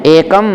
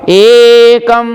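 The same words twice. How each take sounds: First: Said in the usual way. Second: एकम chanted on a raised, held note; higher, sustained chant of एकम; one step higher. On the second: Shown as a demonstration. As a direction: lift the pitch and stretch the ए. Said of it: "एक stage ऊंचा होकर के".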